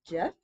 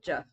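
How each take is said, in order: First: The pitch starts low and rises. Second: The pitch is light and neutral. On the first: "Starts down and it goes up" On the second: "Half is just neutral"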